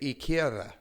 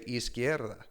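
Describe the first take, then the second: First: The S is dropped, Nicaraguan style. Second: The S sound is clearly pronounced.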